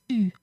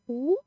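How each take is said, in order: First: U said as ee with rounded lips, not ou; French u. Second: Ou said as the oo of food, lips rounded and pushed forward; teacher showing the wrong sound ou; wrong vowel ou. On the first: Teacher corrects students with the proper French vowel u. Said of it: "it's u". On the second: Teacher warns students, demonstrating the wrong vowel ou. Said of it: "it's not ou". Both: Shown as a demonstration.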